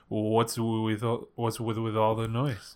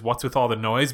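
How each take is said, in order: First: Slow, soft, stilted line reading; bad acting. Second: Said in the usual way. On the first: Shown as a demonstration. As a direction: deliver it stiffly, dragging it out. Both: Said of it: "But he delivers it like this".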